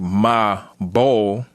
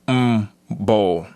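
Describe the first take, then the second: First: A vowel separates the m from the b. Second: The m runs straight into the b. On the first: The speaker calls it wrong. "we separate when we say ma bol" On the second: The speaker calls it right. "when it's actually m bol"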